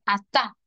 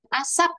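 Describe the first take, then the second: First: The word ends without closing the lips. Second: The word ends with a closed-lip p sound. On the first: The speaker calls it wrong. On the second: The speaker calls it right.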